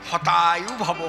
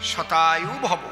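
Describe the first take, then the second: First: The first word begins with an h sound. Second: The first word begins with an s sound. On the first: May your life be cut short. The speaker calls it wrong. "ওদের স উচ্চারণ তো করে না, হ।" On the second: May you live a hundred years. The speaker calls it right. "এর সংস্কৃত কি?"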